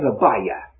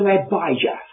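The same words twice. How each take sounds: First: The middle consonant is not a j sound. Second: The middle consonant is an English j sound. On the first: "They don't sound the J" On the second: "They don't sound the J as I have"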